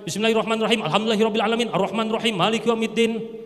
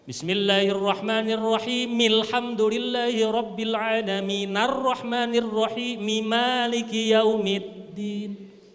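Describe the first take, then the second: First: The verses are rushed together in one breath. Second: Each verse ends clearly before a short pause. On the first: The speaker calls it wrong. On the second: The speaker calls it right.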